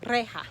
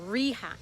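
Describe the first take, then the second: First: The first vowel is a short, pure 'eh'. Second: The first vowel is a hard 'ee'. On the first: The speaker calls it right. "So the sound is also e" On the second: The speaker calls it wrong. "you don't want to give it a hard E like reja or rija"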